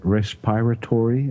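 It is said with an American accent.

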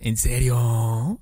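It is said in a Puebla accent.

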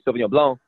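It is said the French way, final C silent.

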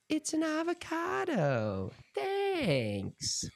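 It is said in a put-on imitation voice.

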